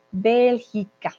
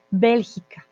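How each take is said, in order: First: Bélgica said slowly, each syllable BÉL-gi-ca spelled out clearly with a falling end; slow model pronunciation. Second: Said in the usual way. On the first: Shown as a demonstration. Teacher modelling Bélgica for her students, slow and careful. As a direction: stretch out Bélgica carefully so students can copy it.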